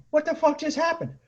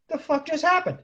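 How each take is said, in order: First: High, baffled repeat of the question; stunned disbelief. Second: High-pitched baffled question; stunned disbelief. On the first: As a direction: ask it again, still much higher in disbelief. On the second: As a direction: squeak out your disbelief, much higher. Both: Retold or imitated. Squad stunned after car leaves.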